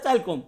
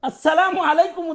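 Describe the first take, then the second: First: The greeting is squeezed into two short syllables. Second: Every syllable of the greeting is said in full. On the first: The speaker calls it wrong. "বলে চালকম" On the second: The speaker calls it right. "আসসালামু আলাইকুম উচ্চারণ করা জানে না"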